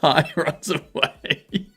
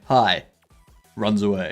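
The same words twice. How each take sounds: First: It is said straight through without a pause. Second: There is a clear pause after "hi".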